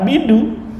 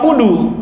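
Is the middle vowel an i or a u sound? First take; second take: i sound; u sound. First: The vowel after the b is i. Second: The vowel after the b is u. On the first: The speaker calls it wrong. "Karena bidu masih banyak" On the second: The speaker calls it right. "jadi bukan karena budu"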